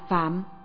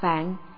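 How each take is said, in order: First: The word ends with an m sound. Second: The word ends with an n sound. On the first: This is how the character is usually read. "nhưng thường đọc là phạm" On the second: This is the Sino-Vietnamese reading of the character. "chữ Hán là phạn"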